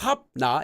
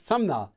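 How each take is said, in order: First: The sound before 'na' is a B. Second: The sound before 'na' is an M. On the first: The speaker calls it wrong. "you don't say as Sabna" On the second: The speaker calls it right. "So you would say it as Samna"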